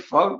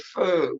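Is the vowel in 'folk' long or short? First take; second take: short; long. First: The vowel is short, as in standard English. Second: The vowel is drawn out long, as in dialect. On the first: This is how other English speakers say it. "We don't say folk" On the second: This is how the local dialect says it. "we say fo"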